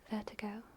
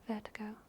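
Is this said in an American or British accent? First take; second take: British; British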